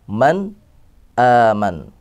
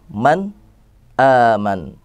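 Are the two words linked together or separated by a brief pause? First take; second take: paused; paused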